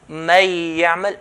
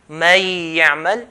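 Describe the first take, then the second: Both takes have the same delivery.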